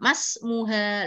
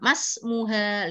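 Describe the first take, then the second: First: The 'i' sound is dropped and the words merge. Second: The 'i' sound is dropped and the words merge.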